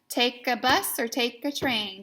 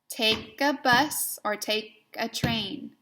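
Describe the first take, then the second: First: It is read at a quicker pace. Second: It is read at a slower pace.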